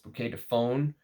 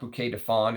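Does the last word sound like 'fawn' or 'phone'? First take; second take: phone; fawn. First: The last word rhymes with 'bone'. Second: The last word rhymes with 'lawn'. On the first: The speaker calls it right. "pronounce it like you say phone" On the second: The speaker calls it wrong. "It's not bouquet de fawn"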